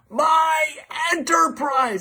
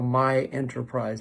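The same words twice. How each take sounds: First: It is screamed very loudly at full energy. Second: It is said at a normal, moderate volume.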